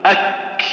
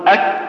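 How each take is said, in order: First: أك closed firmly, then a long breathy K release; breath released after stop. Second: أك shut on the K with no puff after it; stopped, no breath. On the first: Teacher showing the correct kaf, stop then breath released. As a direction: clamp the K of أك, then let air hiss out. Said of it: "تشدها ثم". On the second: Teacher showing kaf without flowing breath, stopped K. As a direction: cut أك dead at the K, breath held. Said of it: "ما جرى". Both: Shown as a demonstration.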